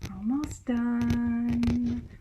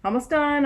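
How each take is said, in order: First: The voice sounds calm and soothing. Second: The voice sounds impatient and exasperated. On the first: The speaker is reassuring and supporting. "Such a different emotional thing" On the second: The speaker just wants it to be over. "oh my gosh, like just okay, it's okay, like just let's get on with this"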